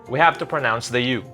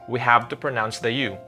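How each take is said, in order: The two takes are said the same way.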